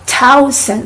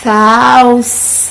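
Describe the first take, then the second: First: The word begins with a hard t sound. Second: The word begins with a soft th sound. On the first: The speaker calls it wrong. "thousand with the t sound" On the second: The speaker calls it right. "It's thousand"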